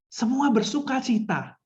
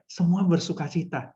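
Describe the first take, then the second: First: High, drawn-out proclamation of joy; bersuka cita. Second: Shy, joyless example; malu-malu. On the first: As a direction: announce the joy slowly on a raised pitch. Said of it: "mimik, misalnya loso-loso mau bilang". (seruan sukacita, nada tinggi dan lambat) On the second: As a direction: say it bashfully, holding the joy back. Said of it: "Jangan malu-malu, gitu ya". (contoh malu-malu, kurang sukacita) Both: Shown as a demonstration.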